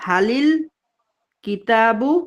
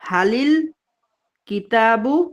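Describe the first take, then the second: First: Hal and the article merge into halil. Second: Hal and the article merge into halil.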